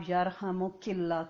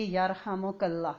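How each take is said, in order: First: یا رحمک اللہ with a clear zer, yarhamuki; feminine form with zer. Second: یا رحمک اللہ with a clear zabar, yarhamaka; masculine form with zabar. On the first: Teacher shows students the form for a woman, carefully articulated. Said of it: "زیر عورت کے لیے". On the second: Teacher shows students the form for a man, carefully articulated. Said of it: "زبر کے ساتھ". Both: Shown as a demonstration.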